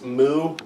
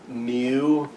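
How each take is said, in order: First: It is said without a Y sound. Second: It is said with a Y sound. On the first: "most people, it's it's moo" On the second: "with like a Y sound in the middle"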